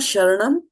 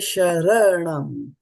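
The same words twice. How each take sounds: First: The 'ra' syllable is shortened and reduced. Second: The 'ra' syllable is said fully and clearly. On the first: The speaker calls it wrong. "It is not sharanam" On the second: The speaker calls it right. "The ra is full here"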